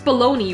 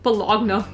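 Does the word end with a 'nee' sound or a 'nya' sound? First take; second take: nee; nya. First: The word ends with a 'nee' sound. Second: The word ends with a 'nya' sound. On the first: This is how the word is actually said. "it's baloney, right?" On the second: This is how the spelling makes it look. "when you read it, it looks like it's just like Bologna"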